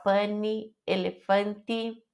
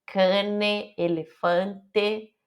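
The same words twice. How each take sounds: First: "elefante" ending in I, as elefanti, sounding plural; final I mistake. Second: "Cane", "elefante" ending in E, elefante very slow; clear final E. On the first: Teacher shows the ending that wrongly sounds plural. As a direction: let the E slide into I. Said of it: "pra não falar no plural". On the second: Teacher repeats the correct singular endings. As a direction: stretch out each final E. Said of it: "precisa prestar muita atenção". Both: Shown as a demonstration.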